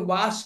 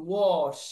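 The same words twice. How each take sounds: First: ওয়াশ as "waash", open "ah"; common wa pronunciation. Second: ওয়াশ as "wawsh", rounded falling vowel; light aw sound. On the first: Teacher shows the learner's form, ওয়াশ as "waash". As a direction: say ওয়াশ briefly with "wa". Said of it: "আপনি ওয়াশ করলে হইতেছে". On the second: Teacher corrects to the aw sound, ওয়াশ as "wawsh". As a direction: say ওয়াশ with a held "aw". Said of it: "হালকা শুধু অ উচ্চারণ হবে". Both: Shown as a demonstration.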